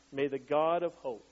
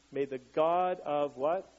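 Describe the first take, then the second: First: Said in the usual way. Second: "what?" drawn out slowly as a rising question for the crowd to fill in; slow, rising "what?" inviting the answer; slow teacher prompt. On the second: Shown as a demonstration.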